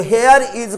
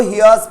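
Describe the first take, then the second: First: Said in the usual way. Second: "hears" run together as one word; contracted here's. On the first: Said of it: "को hears पढ़ना है". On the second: Shown as a demonstration. Teacher shows students how to read the written form, contracted "hears". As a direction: merge here and is into "hears". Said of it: "here is को hears पढ़ना है".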